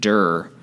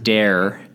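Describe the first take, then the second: First: The vowel sounds like the one in 'fur'. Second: The vowel sounds like the one in 'dare'. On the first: "I'm going to pronounce it dur" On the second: "you pronounce it dare"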